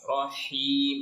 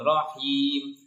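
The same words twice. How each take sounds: First: The h sound has strong, flowing airflow. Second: The h sound is light, without airflow. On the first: The speaker calls it right. "alirkan dulu udaranya" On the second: The speaker calls it wrong. "jangan rohim. Itu sering biasanya pengucapannya seperti huruf h"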